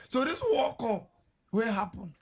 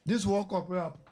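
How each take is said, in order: First: Drawn-out emphatic question. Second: Said in the usual way. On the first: Shown as a demonstration.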